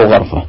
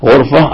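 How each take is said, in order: First: A sound after gh in غرفة; fatha on ghayn. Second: U sound after gh in غرفة; damma on ghayn. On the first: Teacher repeating both options to student, fatha on غرفة, "gharfa". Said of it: "وفتح الغين". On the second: Teacher repeating both options to student, damma on غرفة, "ghurfa". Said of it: "الضم، ضم الغين". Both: Shown as a demonstration.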